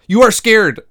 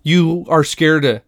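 First: High, loud "You are scared", quicker and more heated; exasperated insistence. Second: "You are scared" slow and spaced out, each word weighted; slow insistence. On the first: Host contradicts ten-year-old Leia harder, loud high exasperation. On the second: Host contradicts brave ten-year-old Leia, slow insistent "You are scared". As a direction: spell out "You are scared" slowly and firmly. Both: Retold or imitated.

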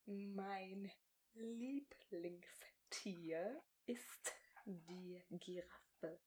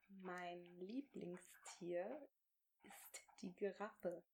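First: Very slow, barely voiced words, stretched out; over-articulate each word slowly, almost silently; exaggerated mouthing. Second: Slow, barely voiced words for lip-reading; near-silent mouthing. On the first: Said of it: "Ich schreie halt einfach". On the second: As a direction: mouth each word slowly and softly. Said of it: "game, mouthing silently for lip-reading". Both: Shown as a demonstration.

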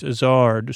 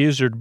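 First: "Izzard" as iz-ARD, full second vowel; corrected pronunciation. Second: "Izzard" said like lizard, stress up front; rhyming with lizard. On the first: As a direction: open up the end of "Izzard" to rhyme with hard. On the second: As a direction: say "Izzard" as IZ-erd, weak second syllable. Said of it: "that rhymes with that". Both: Shown as a demonstration.

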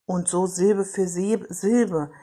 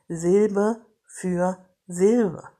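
First: Said in the usual way. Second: Very slow, each syllable separated. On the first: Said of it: "schauen Sie mal, wie ich gerade spreche". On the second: Shown as a demonstration. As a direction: chop it into syllables, slowly. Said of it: "wie ich gerade spreche. Silbe für Silbe".

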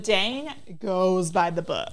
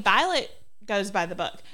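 First: "goes by the book" said slowly and deliberately, weight on "by"; emphatic contrast. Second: Said in the usual way. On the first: Shown as a demonstration. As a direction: lean on "Dane", then spell out "goes by the book". Contrasts two rule followers' strictness.

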